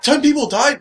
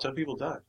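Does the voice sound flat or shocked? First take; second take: shocked; flat. First: It is said with shocked, strong emotion. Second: It is said flatly, with no emotion. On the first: The speaker is genuinely horrified by the deaths. The speaker calls it right. "Wasn't like a shock emotion of" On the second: The speaker seems unmoved by the deaths. The speaker calls it wrong. "No emotion"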